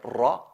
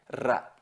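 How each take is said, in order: First: The R is said heavy and emphatic. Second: The R is said light and thin.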